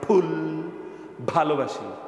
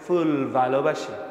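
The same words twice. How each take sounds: First: The f and v are made with both lips. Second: The f and v use teeth on lip. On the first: "বাংলাগুলোতে ঠোঁট মিশে যায়, যেমন আমরা বলি" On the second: "আর বিদেশিরা বলবে"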